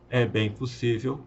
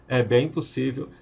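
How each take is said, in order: Both takes have the same delivery.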